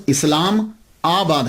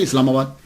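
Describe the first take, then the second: First: इस्लाम आबाद as two separate words, इस्लाम then आबाद; इस्लाम आबाद spelled out as two words; split into its parts. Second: Said in the usual way. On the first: Shown as a demonstration. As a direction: pull इस्लाम and आबाद apart. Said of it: "असल में वो लफ्ज इस्लाम आबाद है". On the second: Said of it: "कसरत इस्तेमाल की वजह से इस्लामाबाद".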